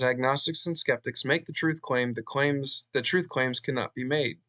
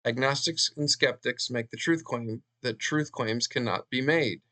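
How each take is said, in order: First: Said in the usual way. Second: Measured re-read, giving each phrase room; slow careful reading. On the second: Shown as a demonstration. Lecturer rereading a hard-to-grasp claim for listeners, slow careful reading. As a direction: read a little more slowly and deliberately. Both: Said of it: "I have to read that slowly".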